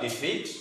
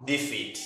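First: Defeat said softly with a light rise, as the verb; defeat, the verb, ending up; quiet defeat with an upward tune; verb reading. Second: Defeat said softly with a falling tune, as the noun; defeat, the noun, ending down; quiet defeat dropping at the end; noun reading. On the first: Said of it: "So you may read it as a verb, defeat". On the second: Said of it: "or noun, defeat". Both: Shown as a demonstration.

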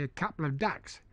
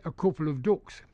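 First: "ducks" with a Cockney open vowel, like "dacks"; Cockney accent. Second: "ducks" with a Northern oo vowel, like "dooks"; Northern English accent. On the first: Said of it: "if you were asked a Cockney". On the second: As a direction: say it as a Northern Englander, "coople of dooks". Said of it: "in the north of England". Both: Shown as a demonstration.

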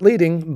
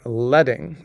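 First: "leading" said LEE-ding; "leading" rhyming with reading; wrong pronunciation. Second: "leading" said LED-ing; "leading" rhyming with bedding; correct typographic pronunciation. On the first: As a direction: say "leading" with a long ee, as in guiding. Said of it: "Not leading, but leading". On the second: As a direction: say "leading" with a short e, like the metal lead. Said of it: "strips of lead". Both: Shown as a demonstration.

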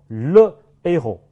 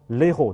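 First: "le a后" as two separate words, le, héros, slowly; no elision. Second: "le后" squeezed together as lé-ro, article vowel dropped; wrongly elided. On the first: Teacher gives the only allowed form, slow and separated. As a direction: keep a clear break after "le", before the vowel of "a后". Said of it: "只能说". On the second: Teacher shows what must not be said, article elided. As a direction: run the l straight into the vowel, "le后" as l'héros. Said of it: "不能说". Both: Shown as a demonstration.

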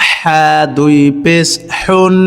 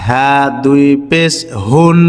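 First: হা and হুন with strong mid-throat HH; slow spelling, pharyngeal h in হুন; throaty hutti h. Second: Slow spelling, easy HOON for হুন; light hawwaz h. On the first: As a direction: squeeze the h in হা and হুন, slowly. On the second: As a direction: breathe a light h in হা and হুন, slowly. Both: Shown as a demonstration. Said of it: "হরফের উচ্চারণটা লক্ষ্য করতে হবে".

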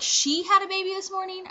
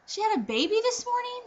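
First: High, incredulous punch on "she"; shocked stress on SHE. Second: Put-on high, incredulous stress on "baby"; shocked question on BABY. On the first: Retold or imitated. Patient doubting it was her own doctor, shocked stress on "she". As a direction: lean on "she" as if it cannot be her. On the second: Patient stunned that a birth happened, shocked stress on "baby". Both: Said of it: "I was completely shocked".

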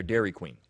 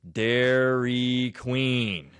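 First: Said in the usual way. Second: Each syllable stretched out in "Dairy Queen"; deadpan punchline, drawn out syllable by syllable and loud; very slow, deliberate. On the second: Acted. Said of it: "speak very slowly".

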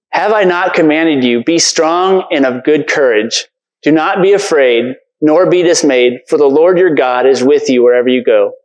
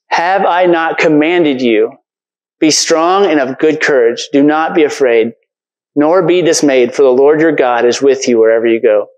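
First: Said in the usual way. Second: Slow, deliberate reread, leaning on each clause; preacher rereading the verse slowly for the congregation; slow emphatic recitation. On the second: Shown as a demonstration. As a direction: say it again slowly so it sinks in. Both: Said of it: "one of those verses that we speak".

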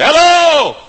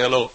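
First: Loud, much higher shouted hello. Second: Said in the usual way. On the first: Retold or imitated. Preacher greeting the crowd in the dark, shouting.

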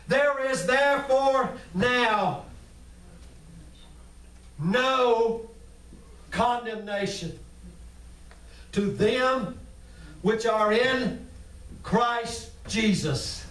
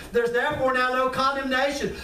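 First: Each phrase set apart by long pauses; slow emphatic reading. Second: Said in the usual way. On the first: Shown as a demonstration. Preacher slowing down to drive the verse home. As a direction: drag it out, word by word. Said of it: "slow emphatic scripture reading". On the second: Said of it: "repeated at normal pace".

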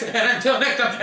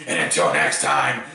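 First: Said in the usual way. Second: Much lower, announcer-style sign-off; low, deliberate closing line; deep sign-off. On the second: Shown as a demonstration. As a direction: drop the voice low for the outro. Retrying his sign-off line.

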